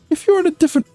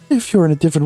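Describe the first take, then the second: First: The voice is pitched fairly high. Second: The voice is pitched noticeably deeper.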